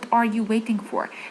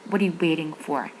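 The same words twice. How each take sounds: First: Each word is said fully and separately. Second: The words are reduced and run together. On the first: "هي لو جت هنا هتبقى" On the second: "بس الامريكانز بينطقوها"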